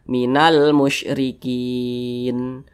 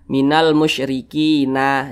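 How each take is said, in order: First: The last word ends on a final consonant. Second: The last word ends on an added vowel. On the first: The speaker calls it right. "jadi ini kita baca minal musyrikin" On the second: The speaker calls it wrong. "jangan dibaca minal musyrikina"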